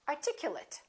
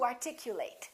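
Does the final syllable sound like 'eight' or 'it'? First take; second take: it; eight. First: The ending is reduced, like 'it'. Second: The ending is full, like 'eight'. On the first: It is used as an adjective. "we have an adjective equivalent" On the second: It is used as a verb. "To articulate"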